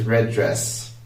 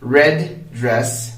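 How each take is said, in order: First: The words run together sharing a single D sound. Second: A short pause separates the words; the D sounds twice. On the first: "if I were to link them together" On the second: "without linking them, I'm saying red, pausing for a bit, and then saying dress"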